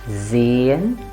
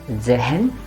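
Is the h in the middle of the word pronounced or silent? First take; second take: silent; pronounced. First: The h is silent and the vowel is long. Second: The h is sounded between two split syllables. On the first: The speaker calls it right. "but Zayen" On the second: The speaker calls it wrong. "and not Zehen"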